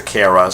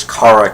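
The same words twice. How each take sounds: First: Kara said "KAIR-uh"; CARE-uh pronunciation. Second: Kara said "KAH-ruh"; KAR-uh pronunciation. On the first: Announcer switches later on, Kara as KAIR-uh. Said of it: "he switches to Kara". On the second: Fan quotes the pageant announcer, Kara as KAH-ruh. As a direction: say Kara with "car" in it. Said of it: "refers to her as Kara Kent". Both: Shown as a demonstration.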